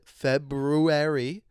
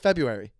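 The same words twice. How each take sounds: First: The word is said slowly and carefully. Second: The word is said quickly and casually. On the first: "I can say it if I slow it down, and think about it" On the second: "If I say it like that, you don't even know"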